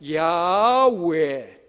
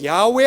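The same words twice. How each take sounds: First: The name is broken into four beats. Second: The name is said in two beats. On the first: The speaker calls it right. "네 번으로 끊어야 되는 겁니다" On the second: The speaker calls it wrong. "두 번으로 야훼 하나님 이렇게 읽는 게 아니라"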